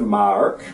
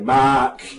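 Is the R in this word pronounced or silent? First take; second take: pronounced; silent. First: The R sound after the vowel is pronounced. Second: The R sound after the vowel is silent. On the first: "Instead of mark" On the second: "in New Zealand we don't believe in pronouncing it"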